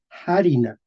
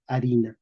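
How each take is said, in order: First: Harina with an audible puff of H; medieval aspirated H. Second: Harina begun on the A, no breath before it; modern silent H. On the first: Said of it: "en español medieval decían". (harina medieval, con H aspirada) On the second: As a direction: leave the H of harina unsaid, "arina". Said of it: "Pero pronunciamos". (harina moderna, con H muda) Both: Shown as a demonstration.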